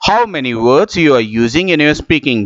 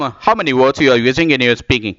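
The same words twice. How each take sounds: First: The sentence is spoken at a slow rate. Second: The sentence is spoken at a fast rate. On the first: "उसी को यदि मैं धीमे बोलने की कोशिश करता हूं" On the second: "यहां पर मैंने थोड़ा सा तेज बोलने की कोशिश की"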